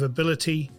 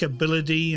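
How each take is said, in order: First: The middle 't' sounds like a clear 't'. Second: The middle 't' sounds like a 'd'. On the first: The speaker calls it right. "instead of" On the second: The speaker calls it wrong. "mispronounces any word with a T in it like it is a D"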